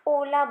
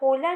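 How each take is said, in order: First: It begins directly with the vowel, no h. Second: It begins with an audible h sound. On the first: The speaker calls it right. "ओला बोलेंगे" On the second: The speaker calls it wrong. "होला नहीं"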